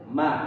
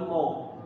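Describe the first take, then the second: First: The vowel after m is a plain open a. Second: The vowel after m is rounded toward au. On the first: The speaker calls it right. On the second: The speaker calls it wrong. "Bukan bukan mau"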